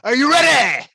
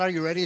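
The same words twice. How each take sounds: First: It is said with more force. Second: It is said with little force.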